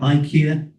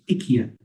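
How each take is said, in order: First: It is pronounced the common English way. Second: It is pronounced the Swedish way. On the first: The speaker calls it wrong. "Some people call it IKEA" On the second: The speaker calls it right. "the correct pronunciation in Swedish is IKEA"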